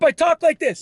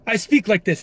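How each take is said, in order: First: It is said in a loud, energetic voice. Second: It is said in a calm, relaxed voice.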